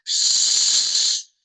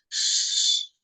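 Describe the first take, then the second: First: The shushing sound is at its loudest. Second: The shushing sound is soft and quiet. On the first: "А давайте тепер ще голосніше" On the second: "тихенько промовимо. Давайте разом зі мною"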